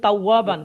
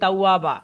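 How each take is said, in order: First: The word ends with an n sound. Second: The word ends with a long vowel. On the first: This is the full form as written. "আছে তাওয়াবান" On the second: This is the form used when pausing. "পড়তাছি তাওয়াবা"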